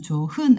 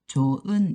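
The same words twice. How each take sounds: First: An h sound is heard between the syllables. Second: No h sound is heard between the syllables. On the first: The speaker calls it wrong. "발음할 때는 좋은 아니고요" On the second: The speaker calls it right. "히읗은 없어져 가지고 좋은 이렇게 발음이 됩니다"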